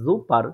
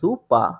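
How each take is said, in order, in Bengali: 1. শব্দটি একটি স্পষ্ট r ধ্বনি দিয়ে শেষ হয়। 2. শব্দটি একটি খোলা ah ধ্বনি দিয়ে শেষ হয়। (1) "এক্সাক্ট বর্ণ ধরে ধরে প্রনাউন্সিয়েশন করার চেষ্টা করি তাহলে হয় কি জুপার" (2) "এটার উচ্চারণটা ডয়েসরা করে থাকে জুপা"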